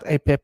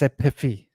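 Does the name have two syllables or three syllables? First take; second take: two syllables; three syllables. First: The name is said with two syllables. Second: The name is said with three syllables. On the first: The speaker calls it wrong. "it's not A P E P" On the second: The speaker calls it right. "it's A P I F I"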